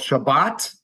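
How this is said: The word ends with a hard T sound. This is the Hebrew pronunciation. "hard T"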